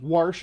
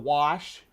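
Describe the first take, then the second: First: Warsh with an r slipped in before the sh; dialect pronunciation. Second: Said in the usual way. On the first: Shown as a demonstration. Streamer showing the local accent, wash said as "warsh". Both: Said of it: "warsh instead of wash".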